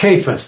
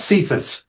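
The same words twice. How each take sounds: First: The name begins with a hard K sound. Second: The name begins with a soft S sound. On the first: The speaker calls it right. "it's Cephas. There's no C in the Greek language" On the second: The speaker calls it wrong. "it's not Cephas"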